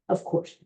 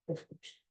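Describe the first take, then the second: First: Said in the usual way. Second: Whispered aside, no voice; a hushed whispered echo. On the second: Real, not acted. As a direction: breathe "of course." as a secret. Repeats phrase, second whispered.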